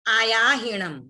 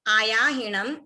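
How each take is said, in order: Both takes have the same delivery.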